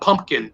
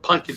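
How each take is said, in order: First: It is said with an m and p sound. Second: It is said with an n sound, no p. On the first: The speaker calls it wrong. "not Pumpkin" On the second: The speaker calls it right. "but Pumpkin, P U N K I N"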